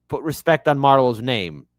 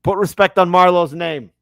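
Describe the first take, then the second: First: Said in the usual way. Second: Higher, louder, insistent Wire quote. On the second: Shown as a demonstration. Quoting The Wire to the audience, louder and insistent. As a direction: demand it like Marlowe himself.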